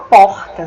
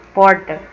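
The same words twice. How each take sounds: First: Porta with a strong throaty R sound in the middle. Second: Porta with a curled, back R in the "r" like inland São Paulo; interior caipira R. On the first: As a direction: say porta with the Acre guttural R. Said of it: "a gente fala porta". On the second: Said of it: "a gente não fala porca, porta". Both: Shown as a demonstration.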